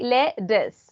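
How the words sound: The middle t is flapped, sounding like d. "if you prefer American English, you can say lettuce"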